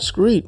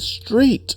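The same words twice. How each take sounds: First: The word begins with a 'skr' sound. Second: The word begins with a 'str' sound. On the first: The speaker calls it wrong. "it's not street. Why are you always saying street?" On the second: The speaker calls it right. "It's street"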